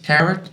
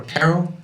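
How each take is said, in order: First: Tarot pronounced "TARR-it"; tarot, final T sounded. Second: Tarot pronounced "TARR-oh"; tarot, silent final T. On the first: Player unsure how to read the card's name, tarot with the T sounded. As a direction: say tarot with a hard T at the end. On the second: Player offering the other reading of the card's name, tarot with silent T. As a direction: say tarot ending on an open O. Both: Shown as a demonstration. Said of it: "Is it tarot or tarot?".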